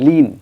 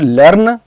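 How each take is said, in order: First: The R sound is dropped completely. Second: The R sound is pronounced clearly and fully. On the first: "अगर बिल्कुल ही इसको गायब कर देते हैं तो लीन हो जाएगा" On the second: "it's not लर्न"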